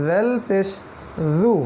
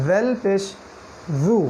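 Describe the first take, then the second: Both takes have the same delivery.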